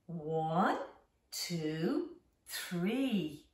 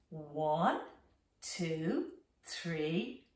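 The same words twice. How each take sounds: The two takes are said the same way.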